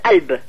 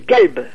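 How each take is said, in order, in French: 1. Il commence par un coup de glotte. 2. Il commence par un g dur. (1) "sans le kaf du tout, comme s'il y avait la Hamza au début" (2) "C'est un G"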